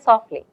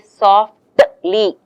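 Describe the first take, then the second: First: The t sound is left out. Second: The t sound is clearly pronounced. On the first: The speaker calls it right. "You say softly. The t is really not there" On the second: The speaker calls it wrong. "You don't say softly. You don't say like that"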